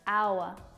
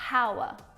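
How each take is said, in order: First: The word begins with a vowel sound. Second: The word begins with an h sound. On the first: The speaker calls it right. "the first sound that you hear when it's pronounced is a vowel sound" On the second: The speaker calls it wrong. "not hour"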